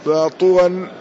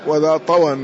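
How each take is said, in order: First: "طوى" said ṭuwan, u after the ṭāʾ; damma on the ṭāʾ. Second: "طوى" said ṭawan, a after the ṭāʾ; fatha on the ṭāʾ. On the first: Teacher showing the reading "بضم الطاء", "طوى" with u. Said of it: "بضم الطاء". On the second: Teacher showing the variant "وبفتحها", "طوى" with a. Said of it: "وبفتحها". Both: Shown as a demonstration.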